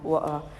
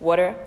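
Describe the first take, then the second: First: It is said with a British accent. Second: It is said with an American accent. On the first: "the British pronunciation" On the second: "the American pronunciation"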